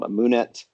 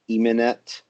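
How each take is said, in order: First: The middle vowel is an 'oo' sound. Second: The middle vowel is an 'eh' sound. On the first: It blends two pronunciation systems. "which is a bad pronunciation" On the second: It follows the scholarly convention. "the Egyptological pronunciation would be like Emenet"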